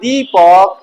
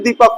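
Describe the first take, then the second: First: It is said in a Bihari regional accent. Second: It is said in a plain standard Hindi accent. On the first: "Bihar में जाओगे ना तो वहां पे क्या होता है? ... ऐसे बात करते हैं।" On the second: "यहाँ सिर्फ दीपक होता है"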